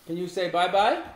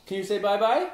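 The two takes are said the same way.

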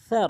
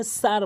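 First: স্যার begun with tongue tip at the teeth, as th; gentle th sound opening স্যার; soft tha. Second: সার with a hissed s, as the letter sin; s for tha. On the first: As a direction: say স্যার with a soft lisped th, no hiss. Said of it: "জিব্বার আগে দাঁতের আগে". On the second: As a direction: start সার with a plain sharp s. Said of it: "সিনের উচ্চারণ আনে". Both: Shown as a demonstration.

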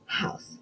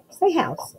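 First: Whispered model word. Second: Said in the usual way. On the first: Shown as a demonstration.

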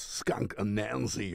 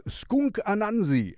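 First: Said in the usual way. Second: "Skunk Anansi" said the German way, "Anansi" as AH-nahn-zee with open flat vowels; German pronunciation. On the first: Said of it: "of course". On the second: Shown as a demonstration. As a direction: say "Skunk Anansi" like a German who speaks no English, a-NAN-zi with a plain a. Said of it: "This is how I would say it in German".

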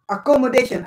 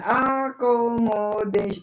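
First: Said in the usual way. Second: Accommodation drawn out slowly, syllable by syllable, to count them. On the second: Shown as a demonstration. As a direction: spell out Accommodation slowly in beats. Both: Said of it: "Five syllables".

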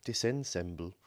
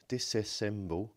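First: "disassemble" said as "dissensemble", with an added n; corrected misprint reading. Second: "disassemble" stumbled out as "dissessemble"; garbled misreading. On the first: Maker correcting his label reading, "disassemble" pronounced "dis-ensemble". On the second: Maker misreading a battery label aloud, "disassemble" garbled as "dissessemble". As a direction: say "disassemble" slowly as a tongue-tangled "dis-sess-emble". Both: Shown as a demonstration. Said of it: "no, disassemble".

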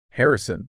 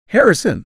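First: Urgent call of a name, held in; an urgent, restrained call; urgent hiss. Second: Loud, high call of a name; desperate, far-carrying yell; shouted. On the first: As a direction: get their attention urgently, without shouting. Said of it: "I hissed, my voice low and urgent". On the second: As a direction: shout out for a missing companion. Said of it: "I shouted". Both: A narrator's reading.

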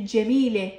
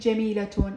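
First: جميلة slowly as "jamee-leh"; جميلة without any case ending; pausal ha ending. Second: جميلة slowly as "jameelatun"; جميلة in full with t and "-un"; ta with case ending. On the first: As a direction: end جميلة on h, with no t. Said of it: "قلت جميلة ما قلت جميلة". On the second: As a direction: sound the ة of جميلة as "-tun". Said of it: "ما قلت جميلة". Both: Shown as a demonstration.

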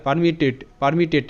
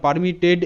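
First: পারমিটেড with the last ড softened towards a ট; final D near T. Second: পারমিটেড drawn out slowly with a fully sounded final ড; wrong hard final D. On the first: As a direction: end পারমিটেড on a clipped, t-like sound. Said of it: "এরকম উচ্চারিত হয়". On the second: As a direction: voice the last ড of পারমিটেড clearly. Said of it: "এরকম নয়". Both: Shown as a demonstration.

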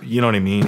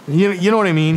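First: Said in the usual way. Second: Higher, louder friendly Tommy voice; imitating Tommy. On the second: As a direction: toss it out like the welcoming host. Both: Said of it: "He'll be like".

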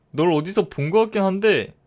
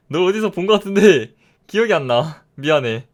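First: Said in the usual way. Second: Louder repeat. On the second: Acted. Gamer repeating his line to the mob, now louder. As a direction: push it out louder.

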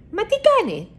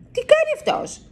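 First: High, baffled first asking of τι κάνει; a bird staring at a mouse hanging upside down; puzzled surprise. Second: Even higher, disbelieving repeat of τι κάνει; the same question rising into amazement; astonished. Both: A narrator's reading. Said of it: "ρωτάει η Σούλα".

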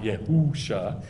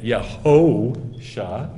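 First: Softer "Yehusha" with "hoo" in the middle; wrong oo vowel. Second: Slow "Yehosha" with a long "ho"; correct O vowel. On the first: Teacher rejecting the misreading, softer "Yehusha" with long oo. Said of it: "not Yehusha". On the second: Teacher adding the O on top, drawn-out "ho" in "Yehosha". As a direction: stretch the middle of "Yehosha" as an oh. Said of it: "it's got the O". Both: Shown as a demonstration.

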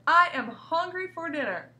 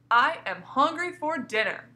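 First: Higher and louder exclamation; exclaiming. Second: Slow, emphatic exclamation; exclaiming. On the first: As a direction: announce your hunger with force. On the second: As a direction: say it like a real exclamation. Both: Shown as a demonstration. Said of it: "that's always an exclamation point".

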